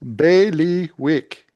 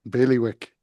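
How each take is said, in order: First: It is said slowly, syllable by syllable, loudly. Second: It is said at normal pace and volume.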